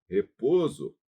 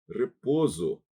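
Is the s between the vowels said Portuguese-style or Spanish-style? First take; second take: Portuguese-style; Portuguese-style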